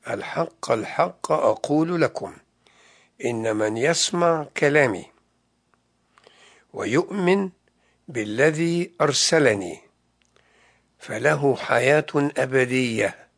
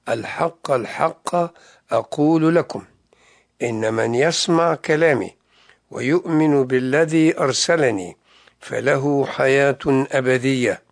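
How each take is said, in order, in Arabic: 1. يُقرأ ببطء. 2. يُقرأ بسرعة عادية. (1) "سأقرأها الآن ببطء" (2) "سأقرأها"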